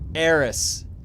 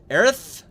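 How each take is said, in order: First: The name is said with an S sound. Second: The name is said with a TH sound. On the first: "her name is Eris with an S" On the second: "like you're saying Eris with a lisp"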